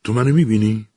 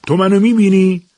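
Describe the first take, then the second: First: Higher, louder uneasy question; nervous question. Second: Shouted, much higher and louder; loud question. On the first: Eliza asks the hidden voice, uneasy and a bit raised. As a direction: ask it warily, half afraid of the answer. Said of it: "پرسید". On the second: Eliza shouts at the unseen voice, high and loud. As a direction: yell the question out into the empty room. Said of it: "با صدای بلند پرسید". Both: Acted.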